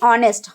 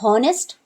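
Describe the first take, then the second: First: The word starts with a vowel, no h sound. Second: The word starts with an audible h sound. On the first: The speaker calls it right. "इसको पढ़ेंगे ऑनेस्ट" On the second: The speaker calls it wrong. "हमने ये तो नहीं कहा हॉनेस्ट"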